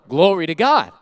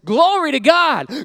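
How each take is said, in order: First: It is said a little louder, with excitement. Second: It is said loudly and very passionately.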